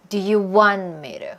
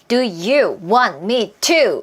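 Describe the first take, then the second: First: The words run together like one word. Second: Each word is said separately.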